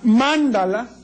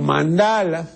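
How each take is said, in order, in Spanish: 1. El acento recae en la primera sílaba. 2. El acento recae en la segunda sílaba. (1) "La esdrújula" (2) "y la otra"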